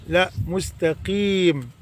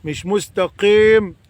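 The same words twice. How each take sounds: First: مستقيم slowly, quietly, with a clean kasra; soft, slow مستقيم with a pure kasra; correct, softer. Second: مستقيم with an open, flattened ق vowel; wrong pronunciation. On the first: Teacher giving the right form after the wrong one, softly. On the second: Teacher mimicking the wrong open vowel. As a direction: say مستقيم with the vowel leaning to fatha. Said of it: "في ناس بيقولوا قيم". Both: Shown as a demonstration.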